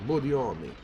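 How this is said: The name is said with a Russian accent. The speaker calls it right. "I would say it like Budioni. A Russian accent"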